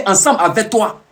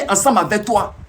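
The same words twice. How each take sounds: The two takes are said the same way.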